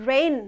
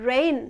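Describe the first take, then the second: Both takes have the same delivery.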